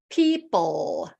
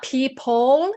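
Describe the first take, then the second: First: Almost no vowel between the second p and l. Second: A clear vowel sounds between the second p and l. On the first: The speaker calls it right. "there's almost no vowel in there" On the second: The speaker calls it wrong. "so it's not people"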